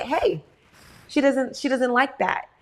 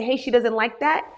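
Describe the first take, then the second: First: Firm protective "Hey, she doesn't like that", stress on "she"; firm warning. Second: Said in the usual way. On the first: Retold or imitated. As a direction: step in and shield your child, firmly. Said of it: "I said". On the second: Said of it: "not only did I say".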